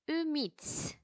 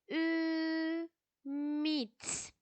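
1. Kelime tek bir birim olarak akıcı biçimde söyleniyor. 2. Kelime ayrı hecelere bölünüyor. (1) "tekrar şimdi kelime kelime okuyalım. Kelimenin bütününü görmeye çalışalım" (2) "İlk önce her zamanki gibi heceleyerek okuyorum"

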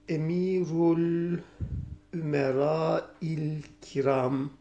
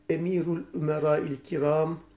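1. Normal, acele etmeden okunuyor. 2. Hızlı okunuyor.

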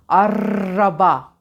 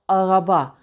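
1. R, dilin hafif bir titremesidir. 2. R, boğazda yapılır.

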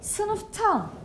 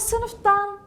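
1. Ek, sessiz t sesiyle başlıyor. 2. Ek, sesli d sesiyle başlıyor. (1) "sınıftan diyorum" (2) "sınıftan demiyorum"

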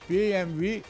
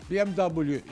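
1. Harfler Almanca harf adlarıyla okunur. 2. Harfler İngilizce harf adlarıyla okunur. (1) "Şimdi BMW bir Almancasıdır" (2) "BMW İngilizcesidir"

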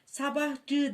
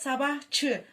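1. Ek, sesli 'j' sesiyle başlar. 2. Ek, sessiz 'ch' sesiyle başlar. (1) "Sabahçı denmez" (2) "Buradaki cı çığ'ya dönüşmüş"

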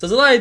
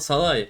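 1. Ad z sesiyle söylenir. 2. Ad z sesi olmadan söylenir. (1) "çok iyi bir telaffuz yapısına sahip değilim ama Sazalai diyeceğim" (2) "Z'yi çıkarmamız lazım"

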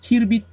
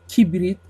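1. R sesi b sesinden önce gelir. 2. R sesi b sesinden sonra gelir. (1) "Kirbit değil"

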